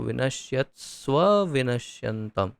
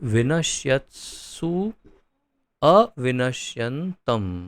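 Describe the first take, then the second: First: The two words are merged into one. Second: The two words are said separately. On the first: "इस प्रकार का शब्द जनित होता है" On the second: "ये दो शब्दों का मिलन है"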